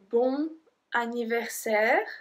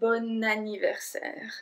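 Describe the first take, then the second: First: Bon is said apart, with no linking n. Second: Bon links to anniversaire with a sounded n. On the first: The speaker calls it wrong. "I don't say bon anniversaire" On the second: The speaker calls it right. "we link the bon et anniversaire"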